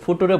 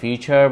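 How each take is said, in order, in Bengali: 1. মাঝের ব্যঞ্জনটি 't' ধ্বনি। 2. মাঝের ব্যঞ্জনটি 'ch' ধ্বনি। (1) "তিনি আর বুঝবে না" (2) "ততক্ষণ পর্যন্ত তিনি বুঝবেন"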